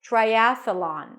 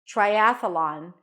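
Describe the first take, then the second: First: A small uh sound separates th and L. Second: The same.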